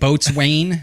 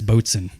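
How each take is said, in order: First: The word is pronounced as it is spelled. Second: The word is pronounced in a shortened form. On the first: The speaker calls it wrong. "you see like boatswain" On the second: The speaker calls it right. "they're like no, it's boatswain"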